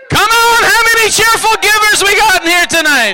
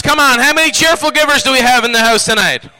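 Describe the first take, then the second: First: High, full-voice rallying shout; rousing holler. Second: Said in the usual way. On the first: Real, not acted. Preacher calling for cheerful givers, high rousing shout. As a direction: yell it to wake up the whole room. Asks again, shouting to crowd.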